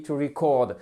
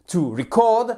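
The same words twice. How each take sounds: First: "to record" stressed on "cord"; right way: "to record", stress on "cord"; correct stress on second syllable. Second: "to record" stressed on "re", like the noun; wrong way: "to record" with stress on "re"; wrong stress on first syllable. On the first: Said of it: "Donc ici, la seconde". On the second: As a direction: punch "re" in "to record" as the mistake. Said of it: "la personne ne vous comprend pas". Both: Shown as a demonstration.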